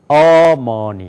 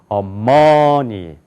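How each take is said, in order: First: The stress is on the first syllable. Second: The stress is on the second syllable. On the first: "앞에가 강조가 되면은" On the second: "두 번째 여기가 강조가 있으면"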